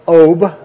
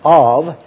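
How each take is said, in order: First: The word ends with a b sound. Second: The word ends with a v sound. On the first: "if you want to write it in English and say OB" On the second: "if you want to pronounce it properly like in the Hebrew language"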